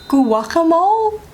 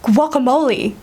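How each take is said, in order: First: The word ends sounding like the word mole. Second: The word does not end like the word mole. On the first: The speaker calls it wrong. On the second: The speaker calls it right.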